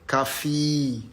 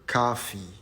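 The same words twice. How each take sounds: First: The stress is on the second syllable. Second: The stress is on the first syllable. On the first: The speaker calls it wrong. "it's not coffee" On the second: The speaker calls it right. "The first syllable is the stressed one"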